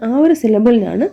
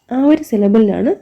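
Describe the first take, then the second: No difference in how they are said.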